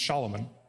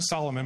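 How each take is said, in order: First: The name begins with a sh sound. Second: The name begins with a plain s sound. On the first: This is the original form of the name. "but it's Shalomon" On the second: This is the usual English form of the name. "We pronounce it Solomon"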